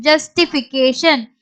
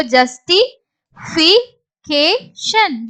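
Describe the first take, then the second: First: Said in the usual way. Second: Slow, separated syllables. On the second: Shown as a demonstration. Teacher builds the word for learners, syllable by syllable. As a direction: break "justification" into pieces with pauses.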